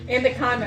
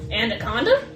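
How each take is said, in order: First: It is said flatly, like a plain statement. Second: It is said with a questioning, rising inflection.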